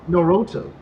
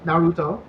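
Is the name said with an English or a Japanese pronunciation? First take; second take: English; Japanese. First: It is said with an English pronunciation. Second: It is said with a Japanese pronunciation.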